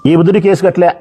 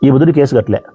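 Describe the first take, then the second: First: ఈ బుద్ధుడి case కట్టలే repeated higher, with బుద్ధుడి stressed; emphatic repeat. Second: Said in the usual way. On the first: Shown as a demonstration. Speaker repeating to the crowd, stressing బుద్ధుడి higher. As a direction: hammer the repeat, raising బుద్ధుడి.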